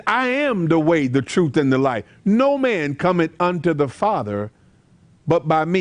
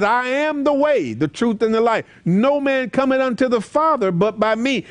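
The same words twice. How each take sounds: First: Said in the usual way. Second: Verse lifted higher and ringing; preached scripture. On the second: Retold or imitated. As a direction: proclaim it to the congregation. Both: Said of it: "That's why Jesus says".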